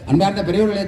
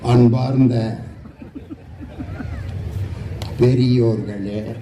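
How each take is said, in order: First: The phrase is spoken quickly and hurriedly. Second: The phrase is spoken slowly and drawn out. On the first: "சில பேர் வேக வேகமா பேசுவாங்க" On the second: "ஒரு சில பேர் பாத்தீங்கன்னா மெதுவா பேசுவாங்க"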